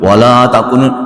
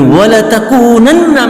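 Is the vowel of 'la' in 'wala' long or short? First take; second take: long; short. First: The vowel of 'la' is drawn out long. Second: The vowel of 'la' is kept short. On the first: It becomes a negation: you will surely not be. The speaker calls it wrong. "Kalau dibaca wala takunun, maka tidak, benar-benar tidak, beda" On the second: It is an emphatic affirmation: you will surely be. The speaker calls it right. "jadi harus dibaca pendek"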